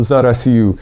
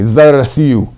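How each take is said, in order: First: Said in the usual way. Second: Raised toast voice, a little louder. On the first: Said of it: "means "to Russia". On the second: Real, not acted. Toasting the tent in Russian, proud raised voice. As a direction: lift the glass and declare it. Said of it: "I lift my glass and I just say".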